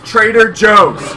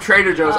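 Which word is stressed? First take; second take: Joe's; Trader. First: The stress falls on the word Joe's. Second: The stress falls on the word Trader. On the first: The speaker calls it right. "The emphasis is on Joe" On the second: The speaker calls it wrong. "My mom does that. I hate it so much"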